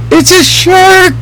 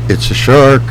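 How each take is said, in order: First: The voice is at its highest pitch. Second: The voice is at a raised pitch. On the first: The shark is very big. "The voice goes up and up and up" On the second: The shark is bigger. "At 6 foot"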